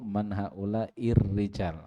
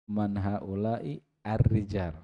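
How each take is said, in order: First: The words are linked, the article vowel dropped. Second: The words are separated, the article vowel pronounced. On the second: "itu kalau dis- diputus tadi"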